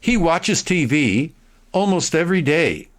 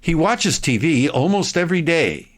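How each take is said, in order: First: The sentence is read at a slow pace. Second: The sentence is read at a fast pace. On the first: "slow reading for the first one" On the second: "now listen at high speed"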